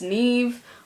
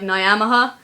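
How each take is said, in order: First: The name is said as one syllable. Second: The name is said with several syllables. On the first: It is the name's real Irish pronunciation. The speaker calls it right. "It's actually pronounced Neve" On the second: It is read letter by letter from the spelling. The speaker calls it wrong. "if you read it, just be like Nyamaha"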